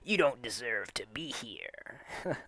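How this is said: It is read in a put-on evil villain voice.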